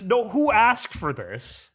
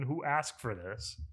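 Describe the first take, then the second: First: High, slow exasperated plea. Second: Much softer, resigned repeat. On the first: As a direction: throw your hands up and ask. Exasperated rant about remakes. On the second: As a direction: say it again under your breath. Repeats complaint, trailing off. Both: Real, not acted.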